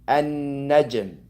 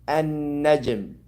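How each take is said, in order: No difference in how they are said.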